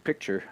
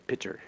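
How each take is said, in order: First: The word keeps the k sound: pick-ture. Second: The word drops the k sound: pitcher. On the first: The speaker calls it right. "Instead of saying picture" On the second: The speaker calls it wrong. "I mispronounce the word on purpose"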